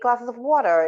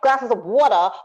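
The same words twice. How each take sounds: First: It is said with a neutral, unmarked accent. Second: It is said with a strong New York accent. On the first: The speaker calls it right. "just very like neutralized" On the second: The speaker calls it wrong. "sometimes New York accents can be a little offensive ... let me give you an example"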